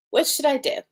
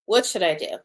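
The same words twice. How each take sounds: First: Higher, eager bright question; energized. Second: Frustrated, weary question. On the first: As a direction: ask it full of energy. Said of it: "I'm feeling very energized". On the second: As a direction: ask it fed up and frustrated. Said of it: "My body is feeling frustration". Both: Pretend.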